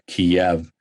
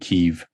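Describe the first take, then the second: First: The name is said the Russian way, Kiev. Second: The name is said the Ukrainian way, Kyiv. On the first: The speaker calls it wrong. "the Russian pronunciation" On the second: The speaker calls it right. "which is the Ukrainian pronunciation"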